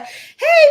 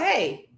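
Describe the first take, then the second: First: The greeting sounds excited and warm. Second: The greeting sounds flat and unexcited.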